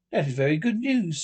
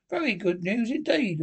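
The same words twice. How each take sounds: First: Measured, grave approval. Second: Higher-pitched, doubting tone; dubious. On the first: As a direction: answer gravely, pitch kept near usual. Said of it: "Mole gravely". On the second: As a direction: let doubt lift the pitch. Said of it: "observed the Rat dubiously". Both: A narrator's reading.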